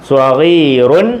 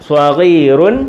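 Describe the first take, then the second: No difference in how they are said.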